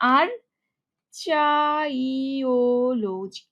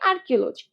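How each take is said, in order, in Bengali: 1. 'ar' এর পরে এটি 'ch' ধ্বনি দিয়ে উচ্চারিত হয়। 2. 'ar' এর পরে এটি 'k' ধ্বনি দিয়ে উচ্চারিত হয়। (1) "দেখো বানানটা কিরকম, এভাবে উচ্চারণ করলেই হবে" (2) "উচ্চারণকে আর্কিওলজি"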